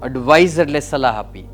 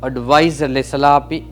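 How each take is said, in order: The two takes are said the same way.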